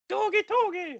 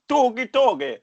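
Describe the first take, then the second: First: The put-on voice is higher in pitch. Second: The put-on voice is lower in pitch. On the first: "I'll do a bit of a higher one" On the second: "I'll just do the wackiest voice you can think of"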